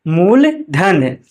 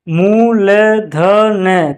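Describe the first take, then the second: First: Said in the usual way. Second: "मूलधन" very slow in separate syllables. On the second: Shown as a demonstration. Teacher spelling out an example, "मूलधन" slow and split. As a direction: sound out "मूलधन" piece by piece.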